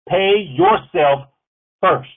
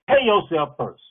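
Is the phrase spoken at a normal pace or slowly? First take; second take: slowly; normal. First: The phrase is spoken noticeably more slowly. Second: The phrase is spoken at a normal pace.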